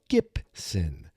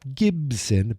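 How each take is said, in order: First: The middle consonant is a P sound. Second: The middle consonant is a B sound. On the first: The speaker calls it right. "but Gibson. G I P S O N" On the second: The speaker calls it wrong. "not Gibson"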